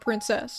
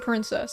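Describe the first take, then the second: First: The stress is on the second syllable. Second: The stress is on the first syllable. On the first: The speaker calls it right. "She emphasizes the cess in princess" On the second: The speaker calls it wrong. "I emphasize the prin"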